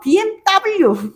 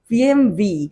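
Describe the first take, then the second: First: The last letter is said as 'double-u'. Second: The last letter is said as 'vee'. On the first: This is how it is said in Korea. "우리는 막 비엠더블유, 비엠더블유 이렇게 이야기를 하잖아" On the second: This is how it is said in Germany. "독일에서는 비엠비라고 이야기를 한대"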